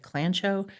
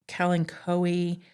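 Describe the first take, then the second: First: The first vowel is dropped, starting with 'kl'. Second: The first vowel is kept, starting with 'ka-l'. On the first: This is the commonly heard version. The speaker calls it wrong. "I always heard it said clancho" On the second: This is the proper version. The speaker calls it right. "apparently it's supposed to be"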